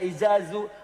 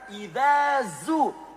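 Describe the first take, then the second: First: The middle consonant is a plain z sound. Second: The middle consonant is a soft th sound. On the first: The speaker calls it wrong. "Ada yang baca pakai za" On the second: The speaker calls it right. "Yang benar"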